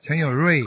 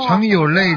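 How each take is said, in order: First: The last syllable begins with an r sound. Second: The last syllable begins with an l sound. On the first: The name keeps its auspicious meaning. "但是在北方人念这个字呢，可能就不会这样了" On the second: The name sounds like the word for tired. "你要是南方人的话，这个读这个字啊，累"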